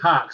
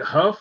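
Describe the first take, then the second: First: The name ends with a k sound. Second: The name ends with an f sound. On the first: The speaker calls it right. "he said it's Hawk" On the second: The speaker calls it wrong. "if you look at it, it looks like Huff"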